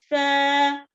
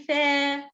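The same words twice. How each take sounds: First: The vowel is a plain open a sound. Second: The vowel is tilted toward an e sound. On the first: The speaker calls it right. "go up with the sound" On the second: The speaker calls it wrong. "Don't read with imala or, or tilting"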